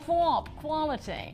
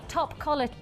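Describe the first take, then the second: First: Said in an imitated drawling accent, 'twop'. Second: Said plainly in the speaker's own accent.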